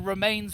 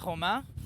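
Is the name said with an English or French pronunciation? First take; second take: English; French. First: The name is said with an English pronunciation. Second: The name is said with a French pronunciation. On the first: This is what British visitors call it. "known to the Brits as the Remains lift" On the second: This is closer to the local name. "pronounced a little bit more like Le Romain"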